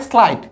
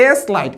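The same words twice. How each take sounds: First: "স্লাইট" in a single syllable starting sl; blended in one go. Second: "এস লাইট" in two parts, a full "es" before লাইট; split blend. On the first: Teacher correcting the split reading, "স্লাইট" blended as one. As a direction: run s into l in "স্লাইট". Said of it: "একবারে". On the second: Teacher warning pupils off a reading, "এস লাইট" split in two. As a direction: say letter S, then লাইট, in "এস লাইট". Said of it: "এরকম বলার সুযোগ নাই". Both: Shown as a demonstration.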